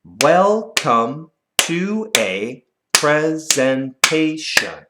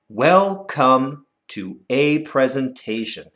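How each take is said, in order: First: Very slow, syllable by syllable; clapped syllables. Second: Slow, measured recital of the line. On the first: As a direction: clap out each syllable slowly. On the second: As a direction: read the line slowly and evenly. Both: Shown as a demonstration. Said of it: "Let's clap it".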